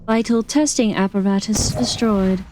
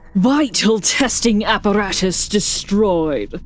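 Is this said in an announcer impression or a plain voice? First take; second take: plain voice; announcer impression. First: It is said without the announcer impression. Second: It is said in a put-on announcer voice.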